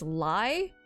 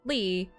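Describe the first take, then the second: First: The name is said with an "eye" vowel. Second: The name is said with an "ee" vowel. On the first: The speaker calls it wrong. "people would mispronounce it as Lai" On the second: The speaker calls it right. "Instead of it being Lee"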